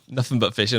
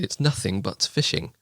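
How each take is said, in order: First: It is said in a West Country accent. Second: It is said in a standard, careful pronunciation. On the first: "But I don't talk like that. So I said" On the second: "if you pronounce it properly"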